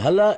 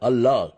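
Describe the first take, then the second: First: The word begins with an h sound. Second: The word begins with a vowel sound. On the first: The speaker calls it wrong. "இது ஹல்லா அல்ல" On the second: The speaker calls it right. "அல்லாஹ் என்பதுதான்"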